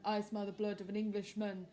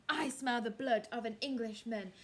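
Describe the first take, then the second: First: Giant voice, a bit louder; storybook giant with changed timbre; giant threat. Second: Louder giant voice; louder storybook giant; giant threat. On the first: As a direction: menace like a giant. Giant chant again. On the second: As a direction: menace like a giant sniffing. Giant sniffing for Jack. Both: Acted.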